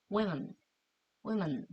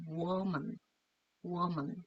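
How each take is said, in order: First: Women said oo-wi-men, lips spreading on the second syllable; women with wi sound. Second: Woman starting with an oo sound, wo-man. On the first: Teacher models women, spreading the lips. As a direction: start with oo then spread to wi in women. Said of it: "이렇게 발음해야 되겠죠". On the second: Teacher models woman with a rounded oo start. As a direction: say woman as oo-woman, lips rounded first. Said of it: "요렇게 발음을 하시면 좋겠습니다". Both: Shown as a demonstration.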